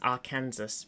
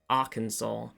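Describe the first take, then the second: First: The name ends like Kansas, with a final s. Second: The name ends in 'saw', with a silent s. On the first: The speaker calls it wrong. "I always read it as Arkansas" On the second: The speaker calls it right. "in fact, some for some reason pronounced Arkansas"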